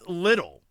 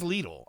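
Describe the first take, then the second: First: The first syllable sounds like the word lid. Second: The first syllable does not sound like lid. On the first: "Li- like like a pot lid" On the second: "with the advertising here says Lidl"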